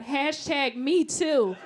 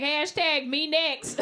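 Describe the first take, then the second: First: Slow, pointed hashtag; mock outrage. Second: Slow, drawn-out eager plea; eager flirt. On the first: Comic reacts to Harvey Weinstein photo, slow pointed outrage. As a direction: spell it out like a protest slogan. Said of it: "I was like". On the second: Retold or imitated. Comic imagines Leonardo DiCaprio inviting her, slow eager flirt. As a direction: beg for it, shamelessly keen. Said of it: "I'd be like".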